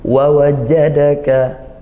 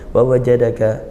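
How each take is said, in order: First: The consonants are pressed forcefully and held. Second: The consonants are said weakly and lightly. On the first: The speaker calls it right. "kuatkan syiddah, tekan, tahan suaranya" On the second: The speaker calls it wrong. "jangan wa wajadaka"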